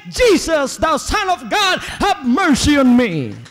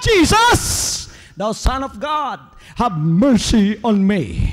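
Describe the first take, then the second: First: Loud, high cry for mercy; desperate beggar's shout. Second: Desperate beggar's shout. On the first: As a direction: cry out to Jesus at full voice. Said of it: "shout at the top of my voice". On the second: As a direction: yell it across the crowd, then plead. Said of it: "he shouted from the top of his voice". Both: Acted.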